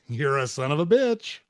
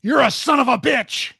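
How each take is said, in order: First: Same words in a light, easy voice; friendly insult. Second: High, loud snapping; harsh insult. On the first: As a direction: say it like a fond joke. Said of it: "less important than how you say it". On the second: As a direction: fling the insult hard. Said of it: "he goes". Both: Retold or imitated.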